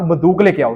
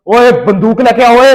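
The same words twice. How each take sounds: First: Said in the usual way. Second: Slow, loud bark for the gun; loud call. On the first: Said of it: "guard को आवाज देके कहा कि". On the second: Retold or imitated. Father calling the guard for his gun, loud and slow. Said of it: "ना ऊंची आवाज में कहा".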